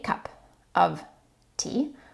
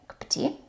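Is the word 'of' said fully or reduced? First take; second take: fully; reduced. First: The word 'of' is said fully and clearly. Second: The word 'of' is reduced and linked, like 'cuppa'. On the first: "even though I didn't say cup of tea" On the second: "I said cup of tea"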